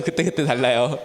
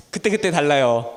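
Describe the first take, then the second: First: "그때그때" lower, in a different put-on voice with a lifting end; put-on catchphrase voice. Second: Said in the usual way. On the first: Shown as a demonstration. Teacher echoing a familiar catchphrase in a borrowed voice. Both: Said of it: "네, 맞아요".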